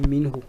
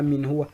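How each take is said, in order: First: The pronoun is joined to the preceding word. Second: The pronoun is said as a separate full word. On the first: The speaker calls it right. "Donc on va dire minhu" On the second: The speaker calls it wrong. "on ne dit pas min huwa"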